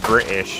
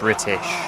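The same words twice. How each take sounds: First: The word is said in a British accent. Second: The word is said in a non-British accent. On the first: "You can tell because I said British" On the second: "instead of"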